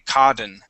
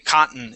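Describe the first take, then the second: First: The middle T sounds like a D. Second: The middle T is silent, skipped over. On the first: The speaker calls it wrong. "those double T's would not be a D sound. We would not say cotton" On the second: The speaker calls it right. "see how I jump over those T's? I say cotton"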